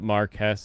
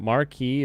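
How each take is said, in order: First: The word is pronounced the British way. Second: The word is pronounced the French way. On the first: "Marquess is like the uh, the Brits pronunciation" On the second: "Marquis is technically the French pronunciation"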